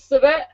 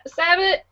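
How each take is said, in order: First: SABAT with a weak first vowel, "suh-BAT"; stumbled pronunciation. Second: SABAT with a clear first syllable, "SAB-it"; corrected pronunciation. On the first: Host reading a guest list, stumbling on Sabat. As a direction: fumble Sabat as "suh-vuh", first syllable swallowed. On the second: Host reading a guest list, correcting Sabat to "SAB-it". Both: Real, not acted. Stumbles on name, then corrects it.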